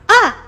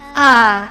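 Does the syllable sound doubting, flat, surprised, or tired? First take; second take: surprised; tired. First: It is said as if surprised. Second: It is said tired, with no energy. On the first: "You just go in uh uh surprise" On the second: "say it as if you're dying. As if you're no energy"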